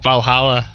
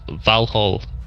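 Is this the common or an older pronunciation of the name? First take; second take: common; older. First: The name is said in its common form. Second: The name is said in an older form.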